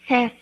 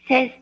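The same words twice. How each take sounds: No difference in how they are said.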